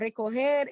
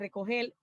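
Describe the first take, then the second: First: The word ends with an R sound. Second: The word ends with an L sound. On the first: "como recoger" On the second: "cambian la R por la L, dicen recoger"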